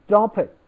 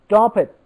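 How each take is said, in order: No difference in how they are said.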